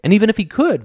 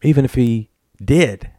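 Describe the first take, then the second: First: Could lifted sharply high, then falling; leaning hard on "could"; "could" pitched way up as the point of the sentence; stress on could. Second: Said in the usual way. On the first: A narrator's reading. Rhetorical build in Gordon's argument.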